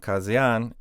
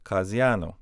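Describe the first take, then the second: First: "Kazian" ending on n, no o; base plural form. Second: "Kaziano" with "oh" after the n; o added at end. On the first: Teacher giving the word for judges, uninflected "Kazian". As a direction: say "Kazian" closed on the final n. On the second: Teacher showing what judges becomes, o-ended "Kaziano". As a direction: finish "Kaziano" on an o. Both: Shown as a demonstration. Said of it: "We just add a o".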